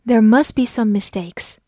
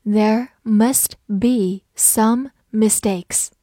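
First: Said in the usual way. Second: Slowly, each word set apart; slow read-along with pauses for repeating. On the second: Shown as a demonstration. Teacher has learners read along after her, slow reading. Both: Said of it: "跟着我慢读一遍".

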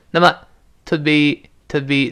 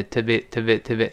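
First: Measured, higher-pitched teaching take of "to be"; slow careful demo. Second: "to be" run together quickly, unstressed; quick, skimmed over. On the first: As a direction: say "to be" slowly and separately. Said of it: "在这一带儿过没的". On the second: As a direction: rattle off a reduced "to be", barely distinct. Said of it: "一带儿过听不清了啊". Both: Shown as a demonstration.

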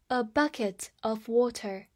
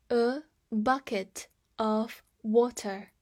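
First: Said in the usual way. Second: Slow, each word set apart; slow model reading. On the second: Shown as a demonstration. Teacher repeats the phrase for learners, slow and separated. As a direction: read it out word by word.

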